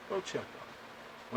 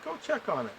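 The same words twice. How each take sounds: First: Hushed, slow whispered "Go check on it."; whispered repeat. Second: Said in the usual way. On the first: Retold or imitated. Repeating the order to his brother, now in a slow whisper. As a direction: whisper "Go check on it." slowly, under the breath.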